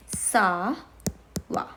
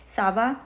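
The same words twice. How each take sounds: First: "ça va" with a long "ça", pause, then "va"; teacher's slowed-down "ça va"; word by word. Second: Said in the usual way. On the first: Shown as a demonstration. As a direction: draw out and separate "ça va". Teacher separates the two words.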